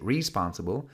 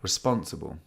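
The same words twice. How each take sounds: First: It is said in an American accent. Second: It is said in a British accent. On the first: "Unless you're American, maybe you'd say" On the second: "in British English, we would say"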